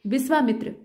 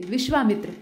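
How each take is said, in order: First: विश्वामित्र said exactly as spelt, plain s in the middle; read as written. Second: विश्वामित्र with a clear sh in the middle; correct pronunciation. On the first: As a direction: spell out विश्वामित्र sound by sound, the wrong way. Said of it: "जैसे लिखा है वैसे ही पढ़िए". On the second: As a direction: say विश्वामित्र the right way, sh not s. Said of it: "विश्वामित्र शुद्ध है". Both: Shown as a demonstration.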